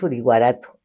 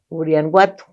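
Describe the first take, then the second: First: The name is said with a 'guarato' ending. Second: The name is said with an 'anguato' ending. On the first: The speaker calls it wrong. "creo que no es Uriguarato" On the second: The speaker calls it right. "creo que se pronuncia de otra manera"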